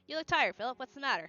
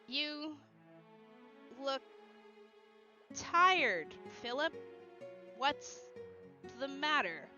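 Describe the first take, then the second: First: It is said at a normal pace. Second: It is said slowly.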